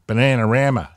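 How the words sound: It is said in an American accent.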